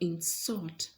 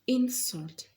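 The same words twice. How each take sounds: First: The stress is on the second syllable. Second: The stress is on the first syllable. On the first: It is used as a verb. "is a verb... the stress is falling on the second syllable" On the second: It is used as a noun. "the stress falls on the first part. It is a noun"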